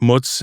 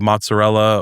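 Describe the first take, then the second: First: The word is clipped short, with the ending dropped. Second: The word is said in full, with every syllable.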